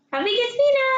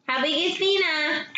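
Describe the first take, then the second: First: Put-on high and loud, asking the baby; sing-song question to a toddler; high excited baby talk. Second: Said in the usual way. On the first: Shown as a demonstration.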